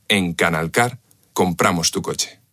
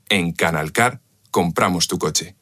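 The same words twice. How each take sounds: The two takes are said the same way.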